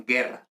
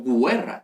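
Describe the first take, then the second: First: Said in the usual way. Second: "guerra" said GWE-rra; "guerra" with an audible gw at the start; sounded U. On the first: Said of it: "yo digo guerra". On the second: Shown as a demonstration. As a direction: pronounce the u in "guerra" as w. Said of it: "yo no digo guerra".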